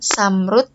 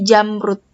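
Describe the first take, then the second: First: The word begins with an S sound. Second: The word begins with a J sound. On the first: "tidak boleh diganti dengan uh, huruf S" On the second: "atau J"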